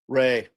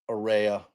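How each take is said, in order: First: The name is said as one syllable. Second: The name is said as two syllables. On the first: The speaker calls it right. "I would pronounce that Ray" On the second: The speaker calls it wrong. "not Rhea"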